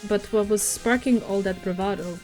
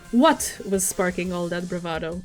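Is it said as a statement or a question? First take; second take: statement; question. First: It is read flatly, like a statement. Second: It is read with a questioning tune.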